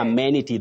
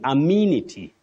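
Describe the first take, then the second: First: The E is a short vowel, not 'ee'. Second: The E is a long high front 'ee' vowel. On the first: The speaker calls it wrong. "not amenity that we hear of locally" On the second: The speaker calls it right. "letter E in this word takes the long, what we call the long high front sound, E"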